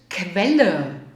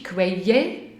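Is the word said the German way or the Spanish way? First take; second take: German; Spanish. First: The double L is said as one plain L. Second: The double L is said the Spanish way. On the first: The speaker calls it right. "in Deutsch ist es Quelle. ... als wenn ihr ein einziges L hättet" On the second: The speaker calls it wrong. "Nicht wie bei euch in der wunderschönen Sprache Spanisch"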